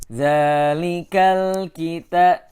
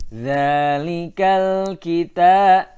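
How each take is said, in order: Both takes have the same delivery.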